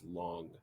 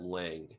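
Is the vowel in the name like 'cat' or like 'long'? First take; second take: long; cat. First: The vowel sounds like the one in 'long'. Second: The vowel sounds like the one in 'cat'. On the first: "So I don't know if that's long" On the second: "I pronounced that Lang"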